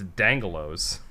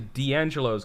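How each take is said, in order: First: The D runs straight into the next syllable. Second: The D is said as its own syllable. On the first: The speaker calls it wrong. "if you just read it out and ignore that accent mark" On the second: The speaker calls it right. "you're supposed to say D'Angelo's because it's got an accent mark"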